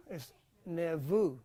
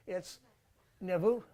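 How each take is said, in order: Both takes have the same delivery.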